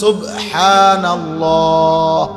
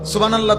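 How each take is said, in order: First: The h sounds are fully and clearly pronounced. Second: The h sounds are slurred and dropped. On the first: This is the proper word. The speaker calls it right. "শব্দ তো হলো সুবহানাল্লাহ" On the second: It is not even a proper word. The speaker calls it wrong. "তো কোনো শব্দ না শব্দ তো এটা না"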